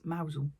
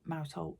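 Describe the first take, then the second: First: It is said as one blended word, mowzel. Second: It is said like the words mouse and hole. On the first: The speaker calls it right. "it's Mousel" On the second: The speaker calls it wrong. "you don't pronounce it mousehole"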